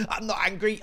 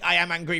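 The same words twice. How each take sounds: First: High, rising protest of innocence; denying anger. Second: "I am angry", conceding it on a raised pitch; admitting anger. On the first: Gamer denying the obvious to viewers, high and defensive. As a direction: insist you're NOT angry, pitched right up. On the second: Gamer contradicting own denial, admitting "I am angry". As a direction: correct yourself, stressing "I" and "am". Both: Real, not acted.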